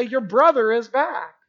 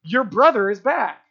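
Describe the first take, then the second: First: Slower and gentle, savoring brother; joyful father. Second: A plain, matter-of-fact announcement; just pass on the news; servants announcing. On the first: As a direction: let the father linger on the good news. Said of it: "the father comes out and is gonna say". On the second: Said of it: "the servants even came out and said". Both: Retold or imitated.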